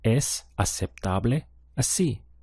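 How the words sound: It is said with statement intonation. It tells a fact. "It's acceptable this way"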